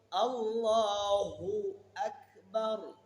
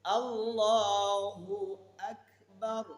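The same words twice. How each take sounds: No difference in how they are said.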